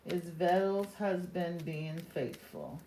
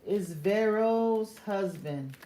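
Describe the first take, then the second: First: "Vero" with a quick tapped R, almost like a D; rolled R. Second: "Vero" slowed, with a smooth English R; corrected R. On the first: Reader asks Spirit about a husband, tapped R in "Vero". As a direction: tap the R in "Vero" so it nearly sounds like "Vetto". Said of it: "you sounded like you were saying Vero". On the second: Reader restarts her question to Spirit, smooth R in "Vero". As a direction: say "Vero" carefully with an untapped American R. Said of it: "Why did it sound like you said Vero?". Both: Real, not acted.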